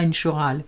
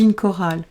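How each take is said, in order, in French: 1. Le mot commence par un son sh. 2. Le mot commence par un son k. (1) "on ne dit pas une chorale" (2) "on dit une chorale"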